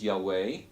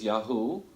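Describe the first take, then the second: First: The second syllable sounds like 'way'. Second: The second syllable sounds like 'oo'. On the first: This is one scholarly guess at the lost second syllable. "we don't know if it was Yahweh" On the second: This is another scholarly guess at the lost second syllable. "We don't know if it was Yahoo"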